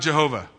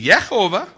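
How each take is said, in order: First: The name begins with a J sound. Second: The name begins with a Y sound. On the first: The speaker calls it wrong. "I can guarantee you God's name is not Jehovah" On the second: The speaker calls it right. "It can be Yehovah. That's okay"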